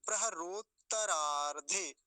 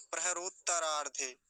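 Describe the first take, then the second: First: प्रहरोत्तरार्धे slowly, both त sounded; careful two-part प्रहरोत्तरार्धे; correct pronunciation. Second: प्रहरोत्तरार्धे run together with one त; प्रहरोत्तरार्धे in one go, no pause in the middle; careless pronunciation. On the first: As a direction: pause on त् in प्रहरोत्तरार्धे, then तरार्धे. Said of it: "बोलेंगे कैसे वो देख लीजिए". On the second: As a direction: rush through प्रहरोत्तरार्धे, dropping a त. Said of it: "वो एक त को छोड़ देते हैं बीच में". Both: Shown as a demonstration.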